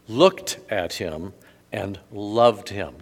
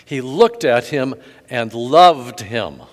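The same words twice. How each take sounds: First: Slow and deliberate, "looked" and "loved" leaned on; slow emphasis. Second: Louder, slow, "loved" punched; stress on loved. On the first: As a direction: lay each word down slowly. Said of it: "catch this". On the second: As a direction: drive home "loved" slowly. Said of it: "Did you hear that?". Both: Shown as a demonstration.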